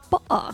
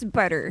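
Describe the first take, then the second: First: It is said with a glottal stop. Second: It is said in an American accent.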